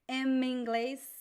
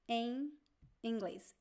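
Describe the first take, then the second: First: The word 'em' ends with lips closed on M. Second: The word 'em' ends nasal without closing lips. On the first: The speaker calls it wrong. "it's not em inglês, em in- no, we don't do that" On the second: The speaker calls it right. "we don't touch the lips. So it sounds a little bit like an N"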